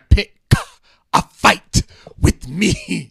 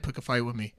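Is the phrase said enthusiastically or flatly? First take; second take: enthusiastically; flatly. First: The phrase is said with loud, lively enthusiasm. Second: The phrase is said flatly, without any feeling. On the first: The speaker calls it right. "Where's the enthusiasm?" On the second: The speaker calls it wrong. "You just said pick a fight with me"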